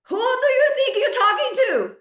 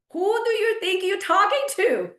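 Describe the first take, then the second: First: Much higher and louder, with stress on "you"; outraged repeat. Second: Higher and pointed, offended; indignant. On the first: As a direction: hit it again, fully outraged. Repeated, escalated. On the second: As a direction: call out the rudeness, offended. First indignant take. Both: Real, not acted.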